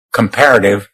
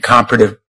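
First: Comparative with stress on the second syllable, kuhm-PAIR-uh-tiv; corrected word. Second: Comparative with stress on the first syllable, KOM-pruh-tiv; misread word. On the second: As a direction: comparative said as KAHM-pruh-tiv, the slip before the fix. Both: Real, not acted. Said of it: "comparative election law".

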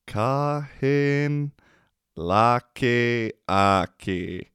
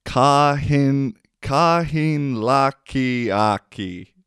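First: "Kahin laki aki" through a laugh, slow; amused slow "Kahin laki aki"; laughing repeat. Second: Slow Savo Finnish "kahin laki aki", stretched vowels; slow Savo dialect "kahin laki aki", a touch louder; Savo accent. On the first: Shown as a demonstration. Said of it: "repeats the word, laughing". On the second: Retold or imitated. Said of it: "has a funny accent".

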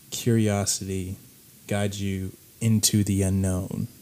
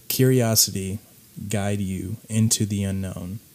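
The two takes are said the same way.

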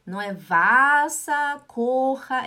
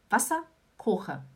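First: Wasserkocher said slowly and louder as the mistake to avoid; wrong way. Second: Wasserkocher said as the correct model, with a sharp s in Wasser; right way. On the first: Teacher showing learners the wrong Wasserkocher, slow and louder. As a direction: Wasserkocher drawn out, as the wrong example. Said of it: "você não fala Wasserkocher". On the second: Teacher giving learners the correct Wasserkocher, cleanly. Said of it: "e sim Wasser". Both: Shown as a demonstration.

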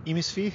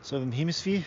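First: Higher "Hemisphere" with the H dropped, Australian; broader Australian accent. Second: Australian accent. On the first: Trying out his put-on accent, exaggerated Australian. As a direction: say "Hemisphere" as 'emisphee, rising, mock Australian. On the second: Naming where his accent is from, mock Australian. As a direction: say "Hemisphere" with no final r, mock Australian. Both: Shown as a demonstration. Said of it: "A little Australian".

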